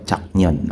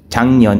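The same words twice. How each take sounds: First: "Chaknyon" with a hard k before n; unassimilated pronunciation. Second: "Changnyon" with ng in place of k; sound-change pronunciation. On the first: Trainer contrasting the rejected form for learners, "Chaknyon" pronounced as spelled. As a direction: keep the k stop in "Chaknyon". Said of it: "instead of Chaknyon". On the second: Trainer explaining the pronunciation rule, "Changnyon" with assimilated ng sound. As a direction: let "Changnyon" run through a nasal ng. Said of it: "bakit naging pronunciation niya is". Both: Shown as a demonstration.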